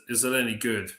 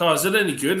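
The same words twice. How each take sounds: First: Mock disbelief. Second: Curious friend. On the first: Echoing the question back, amused. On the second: Retold or imitated. Quoting the friend's naive question.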